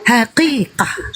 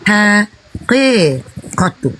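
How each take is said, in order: First: The word is shortened, ending with an h sound. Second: The word is said in full, ending with -tu. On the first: This is the quick everyday form of the word. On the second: This is the full form of the word.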